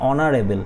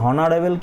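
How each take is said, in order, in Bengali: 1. শব্দটি স্বরধ্বনি দিয়ে শুরু। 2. শব্দটি h ধ্বনি দিয়ে শুরু। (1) "এইচটা এখানে সাইলেন্ট থাকছে, এখানে ও দিয়ে উচ্চারণ হলে" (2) "হনারেবল কি বলছি? বলছি না।"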